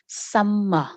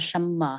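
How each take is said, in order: First: The first consonant is a light, crisp s. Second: The first consonant sounds heavier, like sh. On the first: The speaker calls it right. "sờ nhẹ" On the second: The speaker calls it wrong. "không phải là summer"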